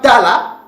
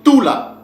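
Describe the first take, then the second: First: The first vowel is an open 'a'. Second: The first vowel is a rounded 'ou'. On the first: The speaker calls it wrong. "ce n'est pas ta là" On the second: The speaker calls it right. "mais c'est tout là"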